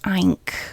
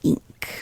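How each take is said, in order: First: The vowel is a short 'ih' sound. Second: The vowel is an 'ee'-like sound. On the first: The speaker calls it wrong. "We don't say ink" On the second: The speaker calls it right. "that makes an E kind of sound"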